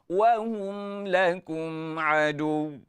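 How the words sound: The pitch falls at the end. It is said as a statement. The speaker calls it wrong. "Dia tak boleh menurun"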